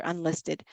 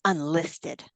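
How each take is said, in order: First: Said in the usual way. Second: UNLISTED as a drawn-out question, rising at the end; incredulous echo. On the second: Retold or imitated. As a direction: echo UNLISTED back in disbelief, ending upward. Coach's reaction echoing the word.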